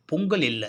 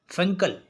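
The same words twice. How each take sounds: First: "பொங்கல்" with P and an O vowel; wrong name பொங்கல். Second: "ஃபெங்கல்" with F and an E vowel, higher; corrected name ஃபெங்கல். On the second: Friend correcting the storm's name to "ஃபெங்கல்", higher and distinct. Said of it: "அதுக்கு பேரு பொங்கல் இல்ல". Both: Shown as a demonstration.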